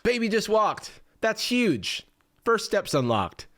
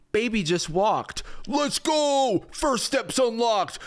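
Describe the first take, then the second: First: Starts high, drops back to a matter-of-fact read; restrained congratulations; toned-down chatbot. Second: High, gushing hype voice; over-the-top celebration; hyped-up chatbot. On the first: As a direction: read the praise with less hype, falling away. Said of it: "Versus G P T five". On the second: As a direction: cheer it like a huge win, drawn out. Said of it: "G P T four oh". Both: Acted.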